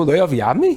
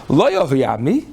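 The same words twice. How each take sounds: First: "Lo yavayabmi" with the stress on "yavayabmi" and a firm declaration; weight on "yavayabmi", said as a clear statement; correct inflection. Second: "Lo yavayabmi" with the stress on "Lo" and a rising tune; wrong inflection. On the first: Rabbi demonstrates the proper reading of "Lo yavayabmi". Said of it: "make sure you got it right". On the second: Rabbi mimics a husband who rises on "Lo yavayabmi". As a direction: lean on "Lo" and lift the end. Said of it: "That's, that's not true". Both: Shown as a demonstration.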